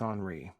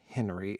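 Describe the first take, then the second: First: The name is said unlike English Henry. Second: The name is said like English Henry. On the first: The speaker calls it right. "it's Henri" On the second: The speaker calls it wrong. "It's not Henry"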